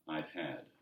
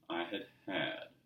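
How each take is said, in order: First: The first had shrinks to a d sound. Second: The first had is a quiet full word. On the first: "instead of pronouncing the whole word, you'll just hear a d sound" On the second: "say the first had a little quieter, second one needs a little more emphasis"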